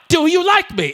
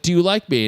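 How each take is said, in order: First: It is asked in an aggressive, angry tone. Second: It is asked in a gentle, pleading tone.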